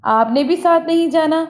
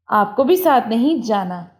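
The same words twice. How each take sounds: First: Wrong sentence 'आपने भी साथ नहीं जाना' said higher, with a lift on 'साथ'; wrong example set apart. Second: Said in the usual way. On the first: Shown as a demonstration. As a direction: pitch up to flag the mistake. (गलत जुमला, ऊँची आवाज़ में) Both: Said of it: "गलतियों को समझें".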